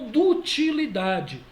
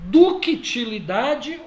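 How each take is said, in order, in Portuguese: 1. Não se ouve som de k antes do t. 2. Ouve-se um som de k antes do t.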